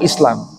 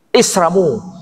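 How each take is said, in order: First: It is said plainly with an L sound. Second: The L becomes R, with an added final vowel.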